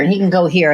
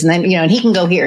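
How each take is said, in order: First: Said in the usual way. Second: Rattled off fast, words tumbling together; quick run-on, mimicking the friend; imitating fast talker. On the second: Mimicking her fast-talking friend Scott, rushed. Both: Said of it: "And he goes like this".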